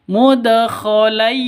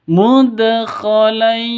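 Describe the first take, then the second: Both takes have the same delivery.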